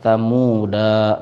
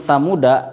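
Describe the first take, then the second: First: The final vowel is drawn out long. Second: The final vowel is kept short. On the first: The speaker calls it wrong. "kita pasti akan membaca pan, panjang ya" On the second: The speaker calls it right. "da-nya dibaca pendek"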